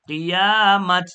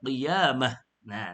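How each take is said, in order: First: The word ends with a clear t sound. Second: The word ends on an open vowel, no t. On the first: The speaker calls it wrong. "เราจะไม่อ่านว่ากิยามัดไม่เอานะครับ" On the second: The speaker calls it right. "เราต้องอ่านว่ากิยามะนะครับแต่หยุด"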